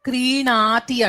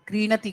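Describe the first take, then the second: First: The vowel after the n is long. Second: The vowel after the n is short. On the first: The speaker calls it right. "అణాకి దీర్ఘం ఉంటుంది" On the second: The speaker calls it wrong. "అది క్రీణతి కాదు"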